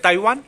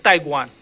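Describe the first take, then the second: First: ताइवान with a V/W sound, "tai-vaan"; Indiase uitspraak. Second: ताइवान said "tai-gwaan". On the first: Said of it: "as a Indians इसको क्या पढ़ते हैं". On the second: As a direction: put a G before the W in ताइवान. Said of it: "इसका sound क्या हो जाता है". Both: Shown as a demonstration.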